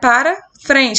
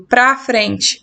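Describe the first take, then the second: First: The first word has two full syllables. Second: The first word is cut to one syllable. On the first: "Este é um país que vai para frente" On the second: "Aí eu digo pra frente"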